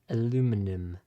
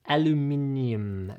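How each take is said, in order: First: It is said the usual North American way. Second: It is said the way some other regions say it.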